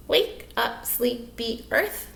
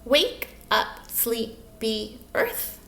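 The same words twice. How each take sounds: First: "Wake up, sleepy earth" in five lighter, closer beats; syllable counting. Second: "Wake up, sleepy earth" in five slow, spaced beats; syllable counting. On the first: Teacher checking the count with children, "Wake up, sleepy earth" in short even beats. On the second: Teacher counting with children, "Wake up, sleepy earth" one slow syllable at a time. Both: Shown as a demonstration. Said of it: "Let's count them".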